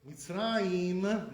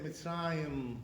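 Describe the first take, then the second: First: Mitzrayim with a tight high EE in the last syllable; high chirik. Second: Mitzrayim with a lax eh-like last vowel; slow Mitzrayim, ending mitz-rah-yem; lowered chirik. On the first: Teacher showing the common way, Mitzrayim with high ee. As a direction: stretch Mitzrayim out to mitz-rah-EEM, raised. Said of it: "Instead of saying". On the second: Teacher showing the Iraqi way, Mitzrayim with lowered chirik. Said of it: "they say Mitzrayim". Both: Shown as a demonstration.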